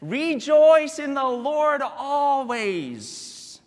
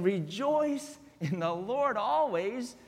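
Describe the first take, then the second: First: Slow, lifted proclamation; scripture reading. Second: Soft, slower rejoice rising at the end; quiet contrast to the proclamation; softer rejoice. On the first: Pastor reading Paul's words to the congregation. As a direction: proclaim the verse slowly. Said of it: "it says". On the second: Pastor setting joy against chains softly. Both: Acted.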